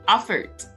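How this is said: The first vowel sounds like a long 'a'. "they would say effort"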